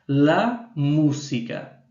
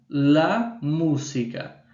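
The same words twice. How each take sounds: No difference in how they are said.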